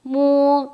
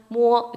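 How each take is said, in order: First: 모 held longer with a strong nasal hum; extra nasal mo. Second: Said in the usual way. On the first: Shown as a demonstration. Teacher contrasting a simple mo with a nasal one. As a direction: let the second 모 ring through the nose. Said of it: "좀 더 비음이 강한". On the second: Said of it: "심플하게 하지 마시고".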